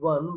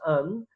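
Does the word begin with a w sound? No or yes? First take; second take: yes; no. First: The word begins with a w sound. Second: The word begins with a plain vowel sound. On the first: The speaker calls it wrong. "not one" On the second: The speaker calls it right. "but un"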